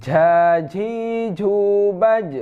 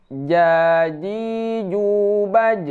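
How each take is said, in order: First: "jaji jubaj" chanted with a puff of air on each j, toward ch. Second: "Jaji jubaj" chanted with tight, voiced j sounds and no puff; J without air. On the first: Teacher shows students the mistake, "jaji jubaj" with aspirated j. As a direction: let breath escape on every j in "jaji jubaj". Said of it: "Nah, ada angin itu". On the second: Teacher repeats the correct reading, "Jaji jubaj" with airless j. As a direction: keep every j in "Jaji jubaj" airless, vowels drawn out. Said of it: "Tidak ada angin". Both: Shown as a demonstration.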